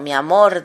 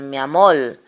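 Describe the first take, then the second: First: The word ends with an R sound. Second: The word ends with an L sound. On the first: "En lugar de decir" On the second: "un puertorriqueño, un, un cubano, ... dice"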